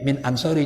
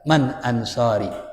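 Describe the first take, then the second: First: The first word is said with an i vowel. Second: The first word is said with an a vowel. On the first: The speaker calls it wrong. "bisa dibaca min, tapi salah gitu" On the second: The speaker calls it right. "kalau ini dikasih tanda aja man"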